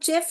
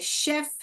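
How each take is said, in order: First: The word begins with a ch sound. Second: The word begins with an sh sound. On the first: The speaker calls it wrong. "बहुत लोग उसको चेफ करके pronounce करते हैं, यहाँ का pronunciation बोलते हैं च करके, मगर वो चेफ नहीं है" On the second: The speaker calls it right. "वो क्या है? शेफ है।"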